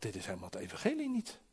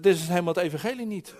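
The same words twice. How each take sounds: First: Softly thinking it to himself, quicker; inward thought. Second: Raised-voice protest, quick, only mildly shouted; retold shout. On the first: Retold or imitated. Preacher recalls silently doubting the man preaching, said softly as a thought. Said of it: "En ik dacht". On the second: Preacher retells standing up against the man preaching, mildly shouted. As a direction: call it out as a recalled objection. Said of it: "ik stond op en ik schreeuwde".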